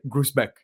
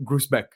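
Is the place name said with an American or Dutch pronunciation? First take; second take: American; American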